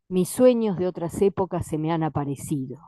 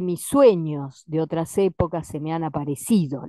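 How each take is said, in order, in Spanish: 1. El verso se lee con acentos naturales, sin exagerar. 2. El verso se lee con acentos rítmicos muy exagerados.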